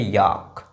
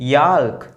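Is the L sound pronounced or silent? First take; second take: silent; pronounced. First: The L sound is silent. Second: The L sound is pronounced. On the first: The speaker calls it right. "इसको पढ़ेंगे" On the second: The speaker calls it wrong. "नहीं"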